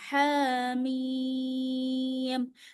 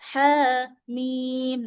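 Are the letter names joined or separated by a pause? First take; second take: joined; separated. First: The two letter names run together without pause. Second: A pause separates the two letter names. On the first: The speaker calls it right. "Sambung semuanya" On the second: The speaker calls it wrong. "jangan diputus"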